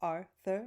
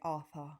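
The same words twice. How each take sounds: First: It is said with both r sounds pronounced. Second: It is said with the r sounds dropped. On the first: "that for me has two R's in it" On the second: "A British person will say Arthur"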